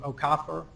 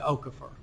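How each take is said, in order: First: The name is said the Nigerian way. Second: The name is said a non-Nigerian way. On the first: "the way his uh, Nigerian relatives do" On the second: "as opposed to"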